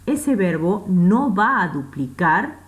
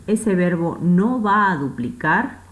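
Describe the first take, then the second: No difference in how they are said.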